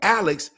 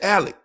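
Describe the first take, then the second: First: The name ends with a ks sound. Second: The name ends with a plain k sound. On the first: "they don't say Alex" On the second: "they say Alec"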